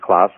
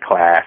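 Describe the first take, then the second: First: The word is said in an Australian accent. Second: The word is said in an American accent. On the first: "instead of class" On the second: "the people who are not in the US are going to notice me saying class"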